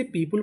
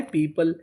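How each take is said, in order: First: पीपल with a short u in the second syllable, "pee-pul" as in pull; mispronounced. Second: पीपल with a neutral schwa in the second syllable; correct pronunciation. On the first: Teacher quotes a common error, पीपल said as पीपुल. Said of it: "जो कि गलत होता है". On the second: Teacher corrects a common error, पीपल ending in schwa plus l. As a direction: say पीपल as "pee-puhl", no u sound. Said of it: "इसका सही उच्चारण क्या होता है?". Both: Shown as a demonstration.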